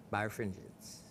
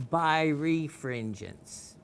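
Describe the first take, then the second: First: Said in the usual way. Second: "birefringence" stretched out syllable by syllable; exaggeratedly slow pronunciation of "birefringence"; real slow. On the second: Shown as a demonstration. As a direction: say "birefringence" very slowly, each part drawn out. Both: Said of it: "read this real slow".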